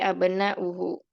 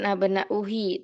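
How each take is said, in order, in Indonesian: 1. Kata ini berakhir dengan bunyi 'hu'. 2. Kata ini berakhir dengan bunyi 'hi'. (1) "tapi abna'uhu" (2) "bukan abna'uhi"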